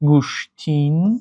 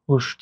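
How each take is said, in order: First: The word ends in an added n. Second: The word ends in a vowel. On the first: "баъзе нафарон талаффуз мекунанд" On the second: "шакли дурусти"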